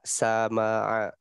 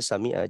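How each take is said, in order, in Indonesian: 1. Konsonan tengah diikuti vokal a. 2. Konsonan tengah diikuti vokal i. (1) "dibaca sama itu keliru"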